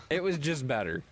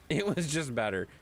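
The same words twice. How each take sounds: The two takes are said the same way.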